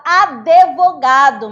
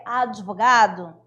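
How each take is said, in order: First: ADVOGADO with an extra E, a-de-vo-GA-do; loud "advogado" with DE as a full syllable; incorrect pronunciation. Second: ADVOGADO with a short D-i, no E; correct pronunciation. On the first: Co-teacher quotes the common mistake, incorrect pronunciation. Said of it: "A pessoa fala". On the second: Co-teacher corrects the mistake, correct pronunciation. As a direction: say "advogado" with a light, brief D. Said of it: "mas o certo é". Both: Shown as a demonstration.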